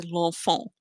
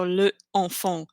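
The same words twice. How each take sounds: First: L'ENFANT as one word, E of LE dropped; smooth elided form. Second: LE ENFANT split, the vowel of LE kept; unelided wrong form. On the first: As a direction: join L directly to the vowel in "l'enfant". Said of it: "That doesn't sound as good as". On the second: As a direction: say "le", then "enfant" separately. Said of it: "it's not so le enfant". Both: Shown as a demonstration.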